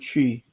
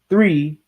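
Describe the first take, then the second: First: The word begins with a t sound. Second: The word begins with a th sound. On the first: "We just pronounce the th as a t sound" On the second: "instead of saying one, two, three"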